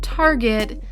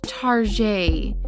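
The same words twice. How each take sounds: First: It is said the plain English way. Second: It is said the French way.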